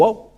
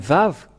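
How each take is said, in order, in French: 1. Le mot commence par un son W. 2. Le mot commence par un son V. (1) "mais pas du tout euh, W ou Wow ou OU" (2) "c'est bien Vav qu'ils épelaient"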